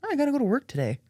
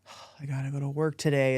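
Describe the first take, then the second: First: It sounds cheerful and accepting. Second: It sounds miserable and reluctant.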